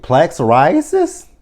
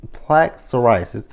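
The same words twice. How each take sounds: First: Incredulous. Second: Said in the usual way. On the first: Shown as a demonstration. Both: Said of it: "That's what you talk about on the first date?".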